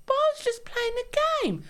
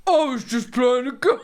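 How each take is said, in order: First: High-pitched mocking whine; mock a partner's feeble excuse, pitched way up; exaggerated squeaky self-defence; whiny husband imitation. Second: Louder, moderately raised mocking voice; mock the excuse with more volume, less squeak; put-on protesting partner; toned-down husband imitation. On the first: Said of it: "I don't speak like that". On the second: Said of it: "Yeah, that's better".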